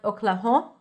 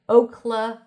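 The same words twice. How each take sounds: First: The first vowel is squeezed into one sound. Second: The first vowel glides as a diphthong. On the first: The speaker calls it wrong. "not Oklahoma" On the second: The speaker calls it right. "but Oklahoma"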